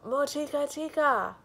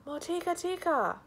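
First: High, booming ogre cry; loud ogre call. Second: Second loud, high ogre shout; repeated ogre call. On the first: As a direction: bellow the name out across the village. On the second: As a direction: call the name again, still booming. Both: Acted. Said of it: "came striding along, crying".

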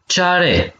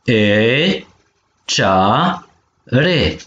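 First: Said in the usual way. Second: Cea, re with a gap between; syllable by syllable. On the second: Shown as a demonstration. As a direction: model cea - re in two held beats. (pe silabe: cea, re) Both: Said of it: "Pene vitumen palalman de acana".

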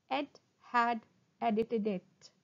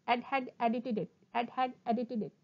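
First: Slow, separated words; slow tongue twister. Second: Quick, joined-up repeats; sped-up tongue twister. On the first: Teacher models a twister for students, slowly. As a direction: pause after each word. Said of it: "first try saying them slowly". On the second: Teacher shows the twister at speed, quickly. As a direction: rattle it off twice. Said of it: "speed up". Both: Shown as a demonstration.

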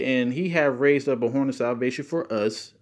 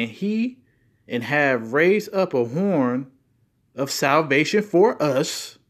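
First: Said in the usual way. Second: Slow, louder, weighted words; emphatic scripture reading. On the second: Shown as a demonstration. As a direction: lean hard on each word of the verse. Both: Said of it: "if you put emphasis on certain words".

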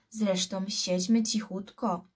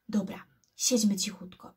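First: Said in the usual way. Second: Siedźmy cichutko breathed out unvoiced; a scared boy whispering back in the dark; whispered agreement. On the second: A narrator's reading. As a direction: whisper it, no voice at all. Boys agree to keep quiet.

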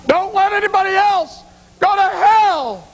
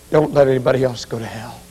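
First: Slow, very high-pitched retold scream; anguished yell. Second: Said in the usual way. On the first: Mother yells to son after funeral, slow anguished scream. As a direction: wail it out across the mausoleum. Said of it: "she yelled at me".

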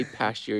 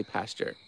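First: "pasture" with a ch in the middle; own pronunciation. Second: "pastor" with a clear t; crisp t in the middle of "pastor"; standard pronunciation. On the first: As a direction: say "pasture" as PAS-cher. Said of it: "I say pasture". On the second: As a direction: say "pastor" as PAS-ter. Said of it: "you say pastor". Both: Shown as a demonstration.

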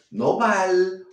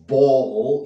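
First: "bal" with a light Spanish L, the wrong way; clipped "bal" as a Spanish speaker would say it. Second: "ball" with a dark English L, held long, louder. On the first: Teacher showing the common learner mistake, wrong L. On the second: Teacher modelling the correct dark L for learners. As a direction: swallow the tongue on "ball". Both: Shown as a demonstration. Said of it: "esa L catalana".

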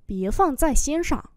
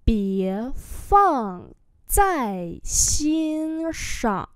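First: Said in the usual way. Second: Very slow, syllable by syllable; slow model reading. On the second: Shown as a demonstration. Teacher modelling Chinese phrases for learners, slow and drawn-out. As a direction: stretch each syllable out for learners.

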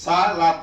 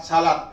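First: সালাত split into two parts, সা and লাত; teacher breaking up সালাত for learners; syllable by syllable. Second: Said in the usual way. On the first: Shown as a demonstration. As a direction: sound out সালাত in separate syllables. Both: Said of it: "উচ্চারণ শুধু, বানান নাই আর".

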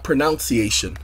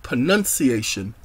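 First: "pronunciation" said as pro-noun-see-AY-shun; "pronunciation" with an "ow" sound, as in pronounce; mistaken pronunciation. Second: "pronunciation" said as pruh-nun-see-AY-shun; "pronunciation" with a short u, no "ounce" in it; correct pronunciation. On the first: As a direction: say "pronunciation" with noun in the second syllable. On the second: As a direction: say "pronunciation" with nun in the second syllable. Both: Shown as a demonstration. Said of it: "not pronunciation".

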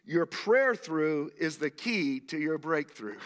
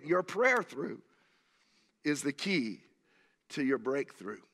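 First: Slow and weighty, leaning on prayer; slow emphatic statement. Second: "Your prayer through" then a pause, "is the key" then a pause, "to your breakthrough" falling; phrased with pauses. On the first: Preacher stating his key line slowly to the congregation. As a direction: lay the line down deliberately so it sinks in. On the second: Preacher repeating his key line in three paced beats to the congregation. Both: Shown as a demonstration. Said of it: "Let me say that again".

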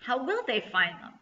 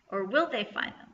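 First: Said in the usual way. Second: "will" lifted as the peak of the question; stress on will. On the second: Real, not acted. Reader teasing next time's story, stress on "will". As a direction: lean on "will" to cast doubt. Teaser question turned to doubt.

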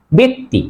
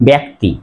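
First: ব্যক্তি said "bekti" with an e; correct e sound. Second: ব্যক্তি said "byakti" with an open a; common mispronunciation. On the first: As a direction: close e vowel in ব্যক্তি. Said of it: "উচ্চারণ হবে". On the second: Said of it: "আসলে উচ্চারণ ব্যক্তি হবে না". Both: Shown as a demonstration.

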